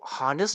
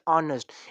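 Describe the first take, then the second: First: The word starts with a clear h sound. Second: The word starts directly with a vowel. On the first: The speaker calls it wrong. "इस word को हॉनेस्ट नहीं पढ़ते" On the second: The speaker calls it right. "ऑनेस्ट पढ़ते हैं"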